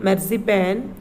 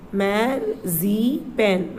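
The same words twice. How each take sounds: First: Said in the usual way. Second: Very slow, stretched marzipan; drawn-out model word. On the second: Shown as a demonstration. Teacher drawing out Marzipan for children to copy. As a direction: stretch every syllable of Marzipan out long.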